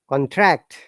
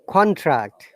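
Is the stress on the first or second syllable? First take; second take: second; first. First: The stress is on the second syllable. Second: The stress is on the first syllable. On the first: It is used as a verb. "when it becomes verb, it becomes the other way around" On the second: It is used as a noun. "For the noun, we have to stress on the first part"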